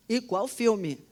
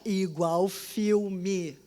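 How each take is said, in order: First: Said in the usual way. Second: Drawn out very slowly for emphasis. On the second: Shown as a demonstration. Telling listeners her vision felt like a movie, drawn out slowly. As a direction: stretch each word out slowly.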